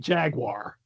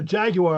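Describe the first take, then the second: First: Jaguar is said with an American pronunciation. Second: Jaguar is said with a British pronunciation. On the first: This is how the speaker normally says it. "I would say Jaguar" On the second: Someone else said it this way to sound posh. "he was like, ah, Jaguar"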